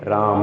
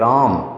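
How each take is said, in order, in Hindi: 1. अंतिम म के बाद अ का छोटा स्वर आता है। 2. अंतिम म एकदम से कट जाता है। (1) "न हलंत होता और न विसर्ग होता वहाँ अ की साउंड आती है" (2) "हलंत होगा ना उसको एकदम से खत्म करना है ... म ज़्यादा लंबा नहीं लेना"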